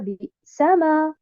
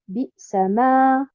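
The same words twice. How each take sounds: First: The stress falls on the middle syllable. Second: The stress falls on the final syllable. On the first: The speaker calls it wrong. "et non pas sur harakat al-sin" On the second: The speaker calls it right. "Je mets un nabre sur harakat al-mim"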